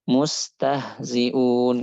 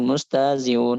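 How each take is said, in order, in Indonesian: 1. Bunyi h di tengah terdengar jelas. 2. Bunyi h di tengah dihilangkan. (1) "harusnya mustahziun" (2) "beberapa orang ada yang mengucapkan"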